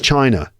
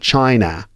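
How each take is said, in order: First: The last syllable has a weak uh vowel. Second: The last syllable has a full A vowel. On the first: The speaker calls it right. "It's China" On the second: The speaker calls it wrong. "is not pronounced as an A. It's not China"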